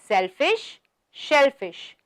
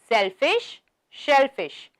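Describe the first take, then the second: The two takes are said the same way.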